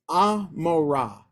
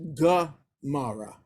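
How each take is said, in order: First: The name begins with a vowel sound. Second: The name begins with a G sound. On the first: This is the Hebrew form. "I just want to point out it's Amorah" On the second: This is the English form. "in English it's Gomorrah"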